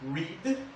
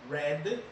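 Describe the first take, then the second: First: The word is said like 'reed'. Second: The word is said like 'red'. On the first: The action happens in the present. "Read, presente" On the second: The action happened in the past. "Read, passado"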